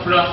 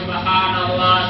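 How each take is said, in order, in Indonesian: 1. Diucapkan terburu-buru dan tidak jelas, jadi suku katanya berkurang. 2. Diucapkan pelan dan setiap suku katanya jelas. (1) "saking cepatnya subhanallah sampai sampai nggak terdengar subhanallah" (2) "Sambil diresapi"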